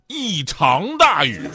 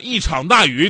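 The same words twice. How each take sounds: First: 场 is said with a rising second tone. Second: 场 is said with a dipping third tone. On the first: The speaker calls it right. "这个长度二声" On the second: The speaker calls it wrong. "听着一点问题都没有"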